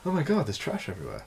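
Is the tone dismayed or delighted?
delighted. It sounds delighted and excited about the trash.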